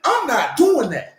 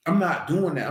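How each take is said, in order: First: Higher, louder, slow I'm not doing that; loud, slow, final no; emphatic refusal. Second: Said in the usual way. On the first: Real, not acted. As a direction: plant your feet on every word.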